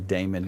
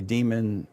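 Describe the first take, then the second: First: The first vowel sounds like 'ay'. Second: The first vowel sounds like 'ee'. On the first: The speaker calls it wrong. "the unwashed say Damon. It's not Damon" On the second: The speaker calls it right. "the cool kids say demon"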